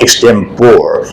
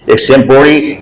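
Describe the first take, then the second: First: The final vowel is left silent. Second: The final vowel is clearly sounded. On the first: The speaker calls it wrong. "not extempore" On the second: The speaker calls it right. "this is pronounced uh, this way only"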